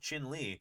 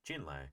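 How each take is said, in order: First: The name is said as two syllables, Chin Lee. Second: The name is given a Spanish-sounding pronunciation. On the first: The name comes from Navajo. The speaker calls it right. "It's Navajo. It's not Spanish" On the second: The name is assumed to come from Spanish. The speaker calls it wrong. "it almost sounds like it's derived from Spanish"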